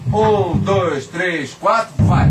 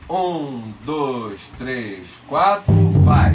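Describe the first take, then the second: First: The count is said at a faster pace. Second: The count is said very slowly.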